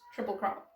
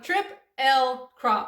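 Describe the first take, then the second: First: The parts are said fast and run together. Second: The parts are said separately, one by one. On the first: "when people say it fast, it's like triple L crop, almost triple crop" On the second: "It's all separated"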